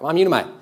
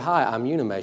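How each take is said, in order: First: It is said very fast, words run together. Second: It is said at a normal, unhurried pace.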